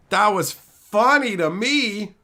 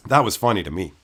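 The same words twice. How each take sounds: First: "funny" and "me" stretched long and high; slow, higher, savoring "funny" and "me"; drawn-out emphasis. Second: Said in the usual way. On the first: Real, not acted. Streamer repeats his verdict on the trolls, drawn-out stress on "funny".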